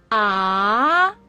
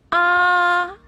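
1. 音高从中等升到高。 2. 音高保持在高处，平平不变。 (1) "二声扬" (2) "一声平"

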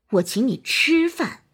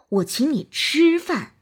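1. 重音在“吃”上。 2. 重音在“吃”上。

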